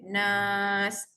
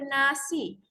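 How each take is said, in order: First: The word ends on s, no final vowel. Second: The word ends with a final i vowel. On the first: The speaker calls it right. "Dibaca nas, dua harakat" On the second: The speaker calls it wrong. "kita tak baca nasi"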